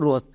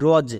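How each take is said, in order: First: The word ends with a hissing s sound. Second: The word ends with a buzzing z sound. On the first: The speaker calls it wrong. "অনেকেই একে ভুল উচ্চারণ করছো রস" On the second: The speaker calls it right. "But আমরা বর্গীয় জ দেব"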